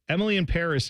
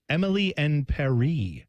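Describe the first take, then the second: First: The middle word sounds like English 'in'. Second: The middle word sounds like French 'en'. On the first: The speaker calls it wrong. "they're saying it wrong" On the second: The speaker calls it right. "supposed to be announced Emily en Paris. To rhyme"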